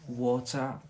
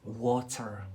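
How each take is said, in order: First: It is said in a British accent. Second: It is said in a Scottish accent. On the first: "here in Britain" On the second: "in Scotland here"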